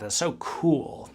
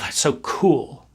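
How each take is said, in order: First: It is said flatly, cool and collected. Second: It is said warmly, with bubbly excitement. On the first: The speaker seems detached and in control. "just be cool and collected and just say it like that" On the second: The speaker admires something eagerly. "I wish I could take all my warm, bubbly feelings"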